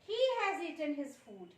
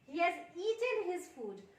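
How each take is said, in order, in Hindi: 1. Stress शब्द 'he' पर पड़ता है। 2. स्ट्रेस शब्द 'has' पर पड़ता है। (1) "उसने अपना खाना खाया है, दूसरों ने नहीं खाया है" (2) "उसने अपना खाना खा लिया है"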